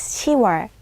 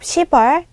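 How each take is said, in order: First: It has no p sound before wol. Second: It has a p sound before wol. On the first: The speaker calls it right. "it is" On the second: The speaker calls it wrong. "Instead of"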